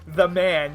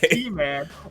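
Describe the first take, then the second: First: It begins with the plain word 'the'. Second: It begins with the letter name 'tee'. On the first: "or the man, your choice" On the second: "letter T"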